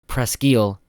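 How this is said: The name is pronounced in a French style. "One is the French pronunciation"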